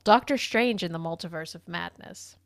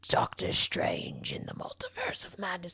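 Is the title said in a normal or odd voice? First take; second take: normal; odd. First: It is said in a plain, normal voice. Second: It is said in a weird, unusual voice.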